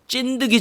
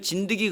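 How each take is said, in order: First: The first consonant is tense and forceful. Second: The first consonant is soft and plain. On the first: It feels vivid and sticky. "그래서 액센트를 좀 주는 거예요" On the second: It does not feel vivid. "정확한 발음은 진드기지만 우리는 진드기 그러면 별로 감이 안 와요"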